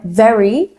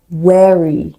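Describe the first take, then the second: First: Said in the usual way. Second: "wary" for very, opening on a rounded W; Indian-accent W for V. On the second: Shown as a demonstration. Teacher showing Indian English vowel and consonant sounds, W-for-V "wary". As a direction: start "wary" with W in place of V. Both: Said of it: "very can sound like wary".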